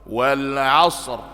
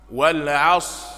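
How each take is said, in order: First: The final r sound is clearly pronounced. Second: The final r sound is dropped. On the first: The speaker calls it right. "Jadi ada huruf ra yang tersebutkan" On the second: The speaker calls it wrong. "Jadi huruf ra-nya hilang"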